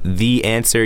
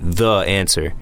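First: The word 'the' sounds like 'thee'. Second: The word 'the' sounds like 'thuh'. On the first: The speaker calls it right. "instead of the answer" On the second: The speaker calls it wrong. "It just doesn't sound so natural"

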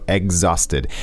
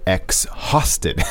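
First: It starts with a sound like 'egg'. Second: It starts with 'ex', following the spelling. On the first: The speaker calls it right. "No, exhausted" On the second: The speaker calls it wrong. "but we don't say exhausted"

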